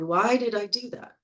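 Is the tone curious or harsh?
curious. It sounds gentle and curious, not blaming. The speaker is calmly looking at the choice. The speaker calls it right. "changing that tonality"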